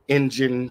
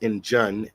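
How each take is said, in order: First: The last syllable sounds like 'in'. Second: The last syllable sounds like 'un'. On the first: The speaker calls it right. "I N G E N" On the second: The speaker calls it wrong. "often mispronounced Injun, I N J U N, in a pejorative manner"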